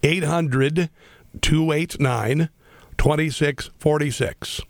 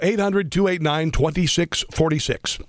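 First: The number is said slowly. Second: The number is said at normal speed.

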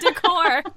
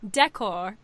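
First: The word is said with an American pronunciation. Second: The word is said with a British pronunciation. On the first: "instead of decor" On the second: "how you say decor"

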